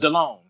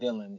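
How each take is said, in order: First: The name sounds like 'De-lone', ending in 'lone'. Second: The name sounds like the common name Dylan. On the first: The speaker calls it right. "No, it's DeLone. He pronounces it" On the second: The speaker calls it wrong. "It's not Dylan"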